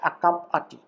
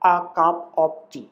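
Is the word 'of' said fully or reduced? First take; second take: reduced; full. First: The word 'of' is reduced to a weak vowel. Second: The word 'of' is said in full.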